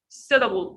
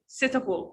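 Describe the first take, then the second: First: The middle t is a soft, d-like flap. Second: The middle t is a clear, crisp t. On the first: "transform the d the t sound here to the sound, like light the sound. ... This is an American accent" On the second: "In standard, you can say suitable, and it's very correct"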